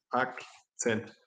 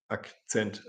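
First: Akzent said the Swiss German way; a light Swiss German accent on Akzent; mock Swiss German accent, a bit softer. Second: Said in the usual way. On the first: Shown as a demonstration. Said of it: "in der Schweiz ... sprechen die Leute Akzent". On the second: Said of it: "Herr Lehrer spricht ganz klar und, äh, ohne Aspekt".

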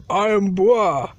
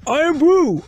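First: "Irn-Bru" as a low "iron bruh"; mispronounced Irn-Bru. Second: "Irn-Bru" as a loud "iron brew"; correcting pronunciation. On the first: Stubborn learner repeating "Irn-Bru" as low "iron bruh". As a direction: say "Irn-Bru" ending in open "brah". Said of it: "No, it pronounced Irn-Bru". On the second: Correcting the learner, loud "Irn-Bru" ending in "brew". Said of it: "it pronounced Irn-Bru". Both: Acted.

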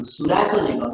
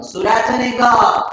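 First: Said in the usual way. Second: Slower and louder, with نگاه landing hard and falling; firm emphasis on نگاه. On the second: Shown as a demonstration. Teacher to students, a stressed falling نگاه. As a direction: tell the class to look, leaning on نگاه.

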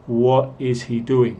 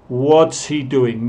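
First: Said in the usual way. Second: "What's" as one syllable, is reduced to an s; spoken contraction "What's", drawn-out teaching pace; contracted "What's". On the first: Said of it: "no, What is he doing". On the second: Shown as a demonstration. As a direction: run What and is together as "What's", slowly. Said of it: "cuando hablamos vamos a decir".

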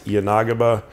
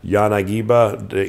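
First: Yanagiba with stress on NAH; Yanagiba as yuh-NAH-guh-buh. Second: Yanagiba with stress on GEE; Yanagiba as yah-nah-GEE-buh. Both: Shown as a demonstration. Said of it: "however you're pronouncing it".

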